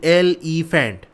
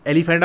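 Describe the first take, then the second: First: "elephant" said slowly as एल, ई, faint; slow, segmented "elephant" for learners; broken into syllables. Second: Said in the usual way. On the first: Shown as a demonstration. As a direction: leave a small break between the parts of "elephant". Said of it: "थोड़ा सा हम break दे के पढ़ें". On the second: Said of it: "आप कैसे बोलते हो".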